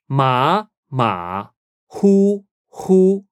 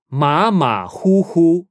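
First: "马马虎虎" very slowly, each syllable apart; drawn-out, separated syllables on "马马虎虎"; slow teaching model. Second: "马马虎虎" run together, still careful; slow but flowing "马马虎虎"; joined-up model. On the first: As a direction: sound out "马马虎虎" with gaps and held tones. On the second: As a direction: say "马马虎虎" as one connected phrase. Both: Shown as a demonstration.

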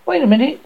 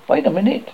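First: "Wait a minute" called high and loud, stress on "wait"; urgent second call of "Wait a minute"; louder repeat. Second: Said in the usual way. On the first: Acted. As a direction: call it again, much higher and louder. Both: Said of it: "the voice said".

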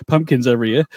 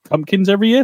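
First: Said in the usual way. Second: High, rising query on "pumpkins every year"; unsure self-check. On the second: Real, not acted. Podcaster checks a word he just fumbled, unsure rising query on "pumpkins every year". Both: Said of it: "That's not right".

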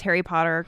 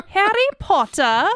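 First: Said in the usual way. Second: High, playful English accent, r's dropped; hammed-up British pronunciation. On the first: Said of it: "pronounces Harry Potter characters in an English accent". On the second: Shown as a demonstration. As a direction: put on a mock English accent, lilting upward. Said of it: "in an English accent sometimes".

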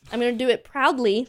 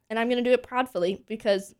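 First: Proudly said higher and louder; stress on proudly. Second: Said in the usual way. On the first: Shown as a demonstration. To the co-host, defending her studio, leans on proudly. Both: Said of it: "I don't know if proudly is a word".

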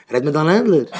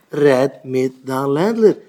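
First: Said in the usual way. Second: "Red mit deinem Ländler" slow, word by word; deliberate, drawn-out "Red ... mit ... deinem ... Ländler"; emphatic repeat. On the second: Acted. Advice repeated slowly word by word.

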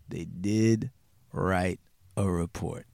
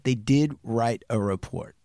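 First: Slow, low, word by word; slow emphatic repeat. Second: Said in the usual way. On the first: Real, not acted. Storyteller repeating the key fact about the report, slow and weighty. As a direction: repeat it slowly and low, letting each word land.

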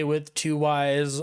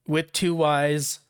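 First: Said in the usual way. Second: "With two Y's" spelled out slowly, each word stressed; slow down and lean on "two Y's"; slow emphatic. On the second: Shown as a demonstration. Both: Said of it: "Make note of that".

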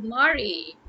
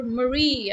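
First: "Mari" as MAH-ree, stress up front; mispronounced Mari. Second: "Marie" as muh-REE, stress at the end; correct Marie. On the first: Getting the listener's name wrong on purpose, mispronounced Mari. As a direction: say "Mari" with a long opening ah. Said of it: "I'll keep calling you Mari". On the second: Imagining the listener's own name, correct Marie. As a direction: say "Marie" with quick uh, long ree. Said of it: "suppose you're Marie". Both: Shown as a demonstration.

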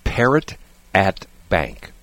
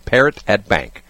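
First: Word by word, spaced out; slow, deliberate repeat. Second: Said in the usual way. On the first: Real, not acted. Host repeating his list item to co-host, slow and deliberate. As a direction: spell it out slowly for the listener. Repeating for listener who missed it.

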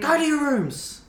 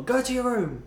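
First: High, loud, slow stern parent shout; hammed-up parent yelling at kids; mock parent yell. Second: High stern parent shout, a bit less loud; mock parent yell. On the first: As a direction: bellow it like an angry parent. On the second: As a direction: snap it like a cross parent.

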